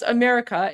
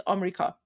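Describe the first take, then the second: First: Said in the usual way. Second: "Amrika" in three syllables, lower; Persian pronunciation. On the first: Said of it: "that's how we pronounce America". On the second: Shown as a demonstration. Streamer summing up the lesson, Persian-style "Amrika". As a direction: say "Amrika" with AH first and no "e" in the middle. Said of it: "It's Amrika".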